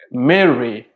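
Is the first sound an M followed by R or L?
R. The word has an R sound in it.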